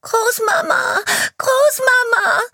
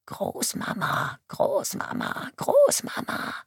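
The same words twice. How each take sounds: First: High, loud sobbing cry for grandma; terrified crying scream. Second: Put-on faint, whispered child's cries from far off; a little girl calling for grandma in panic, far away; distant panicked cries. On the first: Acted. A terrified little girl running towards the police chief, screaming and crying. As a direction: scream it through tears, close now. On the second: A child calling from afar for her grandmother, faint and panicked. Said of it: "Panik und Horror hallen in der jungen Stimme wider".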